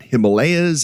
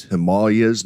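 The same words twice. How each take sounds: First: "Himalayas" said the Western way, him-a-LAY-as; Western pronunciation. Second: "Himalayas" said the Indian way, him-AH-lee-as; Indian pronunciation. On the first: Podcaster contrasting the West's way, "Himalayas" with stress on LAY. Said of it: "That's how we pronounce it here". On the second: Podcaster showing listeners how India says it, "Himalayas" stressed on AH. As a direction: stress the second syllable of "Himalayas", with an AH. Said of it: "it is pronounced Himalayas". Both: Shown as a demonstration.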